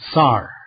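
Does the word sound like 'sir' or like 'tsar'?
tsar. The vowel is open, like in 'tsar'.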